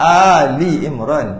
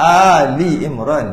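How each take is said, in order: First: An i vowel comes between Al and Imran. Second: The same.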